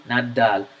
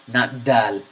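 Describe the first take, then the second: No difference in how they are said.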